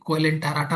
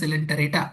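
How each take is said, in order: First: The word begins with a K sound. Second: The word begins with an S sound. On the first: The speaker calls it wrong. "कोएलेंटाराटा मत पढ़ना" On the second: The speaker calls it right. "यहाँ हिंदी में लिखा हुआ है सिलेंटरेटा"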